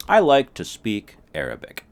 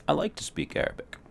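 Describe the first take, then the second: First: High and loud statement. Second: High unvoiced whisper. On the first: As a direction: say it out loud proudly. Mock dialogue, loud. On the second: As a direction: whisper it lightly. Mock dialogue, whispered. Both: Shown as a demonstration.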